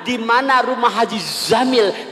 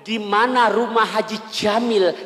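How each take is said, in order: First: The name starts with a z sound. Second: The name starts with a j sound. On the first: "ditukar menjadi huruf zai" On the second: "Jim. Jim"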